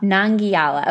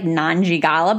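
First: "Nangiala" with a hard g and gliding -yala; copied elegant pronunciation. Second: "Nanjigala" with a j sound and a hard g before -ala; clumsy mispronunciation. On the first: Co-host copying the host to be consistent, elegant "Nangiala". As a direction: say "Nangiala" with no j, echoing the elegant model. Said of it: "try to say it the same way". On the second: Co-host admitting her own guess at the name, mispronounced "Nanjigala". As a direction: say "Nanjigala", stumbling in an extra g. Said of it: "you sounded way more elegant saying it". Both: Shown as a demonstration.

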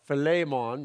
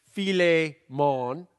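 First: Said in the usual way. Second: Filet mon, slow, rising, fi-LAY mon; slow joke pronunciation. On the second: Shown as a demonstration. Pastor showing the congregation a silly way to say Philemon, slow pun. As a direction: draw out filet mon like ordering steak. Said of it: "take out the chick and it's".

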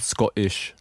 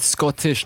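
First: Scottish lower, with a glottal stop for the T; dropped T. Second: SCOTTISH slowly, with its T pronounced; sounded T. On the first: Contrasting two ways, Scottish with its T dropped. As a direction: swallow the T in Scottish. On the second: Questioning the accent rule, Scottish with a clear T. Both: Shown as a demonstration. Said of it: "not Scottish".

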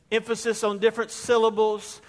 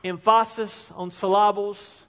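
First: Said in the usual way. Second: Emphasis and syllables stressed on the second syllable, em-FAH-sis, sil-LAH-bles; joking misplaced stress. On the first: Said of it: "read in different ways". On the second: Shown as a demonstration.

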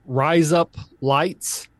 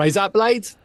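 First: Said in the usual way. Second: Higher "Rise up, blades" in faked Australian; Australian accent. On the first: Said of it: "you say". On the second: Shown as a demonstration. Repeating the trick phrase, terrible American Australian accent. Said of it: "get you to the Australian".

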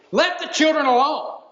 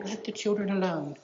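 First: Higher and louder, a sharp stern command; firm, annoyed order to back off; indignant rebuke. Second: Much softer, mild and kindly; soft gentle version of the command. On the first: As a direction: snap it like an irritated teacher. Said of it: "could very well be the tone that's used". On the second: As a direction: say it softly, as a tender request. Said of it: "It's not a gentle". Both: Shown as a demonstration.

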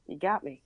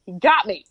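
First: Soft, resigned admission. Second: GOT punched much louder; emphatic admission. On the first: Won over by the beer promoter, resigned. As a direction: give in quietly. Admits defeat to the salesman. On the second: Retelling defeat by the beer promoter, emphatic admission. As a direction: concede it with force on "got". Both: Retold or imitated.

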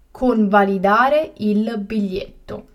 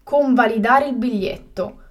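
First: Slow and carefully spaced; slow, clear repetition. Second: Said in the usual way. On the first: Shown as a demonstration. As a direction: say it again slowly for learners. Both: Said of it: "teacher repeats the word twice".

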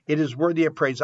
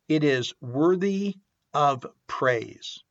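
First: Said in the usual way. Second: Slow, each word weighed; slow and deliberate. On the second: Shown as a demonstration. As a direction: lay it out slowly, word by word.

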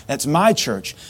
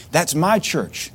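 First: Said in the usual way. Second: Slow "That's my church" with "my" held and leaned on; owning it: "That's MY church"; stress on my. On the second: Shown as a demonstration. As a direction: say "my" slowly and proudly. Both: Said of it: "Not that's the church I go to".

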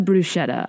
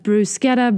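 First: "bruschetta" the casual American way with sh. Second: "bruschetta" said with a hard k, brus-KET-ta; "bruschetta" the Italian way, hard k sound; Italian-style bruschetta. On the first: Giving the common version, "bruschetta" with sh. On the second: Listing the proper version, "bruschetta" with a k. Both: Shown as a demonstration. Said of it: "An example would be of".

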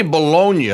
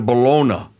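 First: "Bologna" said as buh-LOH-nyuh; pronunciation with NY. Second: "Bologna" said as buh-LOH-nuh; pronunciation without Y. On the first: Quoting the co-host's pronunciation, "Bologna" with a NY sound. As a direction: put a gliding NY into the end of "Bologna". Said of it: "you say Bologna". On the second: Giving the supposed Italian pronunciation, "Bologna" with plain N. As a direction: end "Bologna" on a plain N, no Y glide. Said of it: "I thought the Italians pronounced it Bologna". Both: Shown as a demonstration.

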